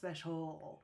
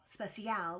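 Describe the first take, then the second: First: The last syllable has a reduced schwa vowel. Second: The last syllable has a full vowel. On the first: The speaker calls it right. "that A is having the uh sound, the schwa sound" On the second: The speaker calls it wrong. "we don't say special"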